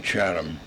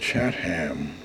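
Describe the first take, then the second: First: The final 'ham' is reduced and weak. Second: The final 'ham' is fully sounded. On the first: This is the easier way people say it now. "So I guess we being lazy people, we say Chatham" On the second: This is the old way the town was named. "It was always called Chatham, like Wareham, like Eastham"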